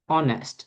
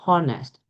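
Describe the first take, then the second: First: It starts with a silent h. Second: It starts with a pronounced h sound. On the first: The speaker calls it right. "the same is true for honest" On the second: The speaker calls it wrong. "not honest"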